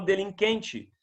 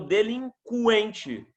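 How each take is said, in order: First: The u after the q is silent. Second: The u after the q is pronounced. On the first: The speaker calls it wrong. "Eu não falo delinquente" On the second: The speaker calls it right. "eu falo delinquente. ... porque eu pronuncio o som do U"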